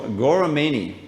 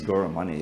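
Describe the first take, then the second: First: Gauramani with MAY-nee at the end; mispronounced name. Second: Gauramani with MUH-nee at the end; correct name. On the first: Teacher calling someone by name wrongly, Gauramani said as gora-MAY-nee. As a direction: say Gauramani as gora-MAINY, rhyming with rainy. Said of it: "it's not Mani". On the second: Student correcting their name, Gauramani said as gora-MUH-nee. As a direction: say Gauramani as gora-MUNNY, short vowel. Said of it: "my name is Gauramani". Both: Shown as a demonstration.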